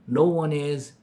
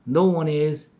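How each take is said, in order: Both takes have the same delivery.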